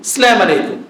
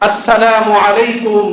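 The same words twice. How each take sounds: First: Sounds of the greeting are slurred or clipped. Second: Every sound of the greeting is clearly pronounced. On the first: It no longer works as a prayer for the other person. The speaker calls it wrong. "এমন ভাবে সালাম দেয়" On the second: It is a proper prayer for the other person. The speaker calls it right. "শুদ্ধ উচ্চারণে দিব"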